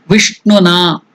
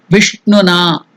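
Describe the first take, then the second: No difference in how they are said.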